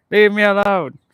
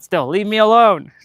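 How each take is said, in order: First: Higher, louder, laughing plea; laughing shoo. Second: Higher and louder, whiny shoo; exasperated shooing. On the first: Vlogger repeating her plea to the bugs, laughing. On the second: Vlogger telling flying bugs to leave her alone, loud whiny plea. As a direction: shoo them off, half-laughing. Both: Real, not acted.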